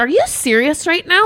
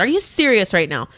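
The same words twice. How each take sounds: First: High-pitched incredulous retort; retold outburst, voice shooting up; exasperated disbelief. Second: Incredulous, closer to usual pitch; unprofessional disbelief. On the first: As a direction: drop the professional tone in disbelief. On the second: Retold or imitated. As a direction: ask it in contained disbelief. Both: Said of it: "all my professionalism was just, like, out the door".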